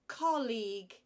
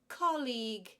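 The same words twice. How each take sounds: No difference in how they are said.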